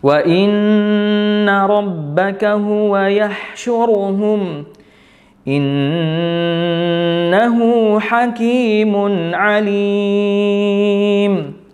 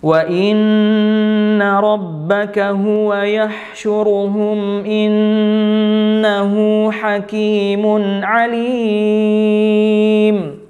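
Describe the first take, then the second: First: The reader stops partway through the verse. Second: The reader continues without stopping midway. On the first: "Itu contoh jim yang berhenti" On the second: "Atau boleh terus"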